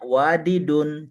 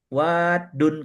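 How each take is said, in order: First: A vowel separates the two d sounds. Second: The two d sounds merge into one. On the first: This is the underlying original form. The speaker calls it wrong. "memang bunyi asalnya wadidun, tapi tidak diucapkan bunyi wadidun" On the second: This is how native speakers actually say it. The speaker calls it right.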